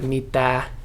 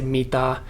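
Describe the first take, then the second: First: It is said with a native Finnish vowel. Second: It is said with an American-sounding vowel. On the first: The speaker calls it right. "instead of saying like" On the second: The speaker calls it wrong. "they would also mix up the A and ah ... you would say"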